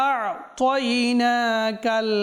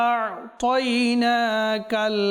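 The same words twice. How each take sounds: The two takes are said the same way.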